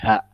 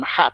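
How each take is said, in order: First: The h is a soft, plain breath. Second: The h is a tight, throaty sound. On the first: This is how the imam actually read it. The speaker calls it wrong. "tapi ha ... tidak fasih" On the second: This is how the word should be read. The speaker calls it right. "bukan ha"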